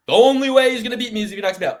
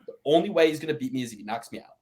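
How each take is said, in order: First: High, loud and fast, stated as hard fact; confident factual tone. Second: Fast, rising at the end like a supposition; hypothetical questioning tone. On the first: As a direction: say it like a sure thing, fast and loud. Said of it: "you can say it in this tone". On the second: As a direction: float it as a mere possibility, ending up. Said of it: "Or you can say it like this". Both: Shown as a demonstration.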